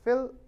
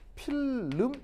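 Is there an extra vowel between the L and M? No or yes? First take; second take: no; yes. First: The lips simply close for M with no vowel. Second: An extra vowel sound is inserted before the M. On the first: The speaker calls it right. "이거야, 그렇죠? 이렇게 발음하는 거야" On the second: The speaker calls it wrong. "름 이런 발음은 없어요"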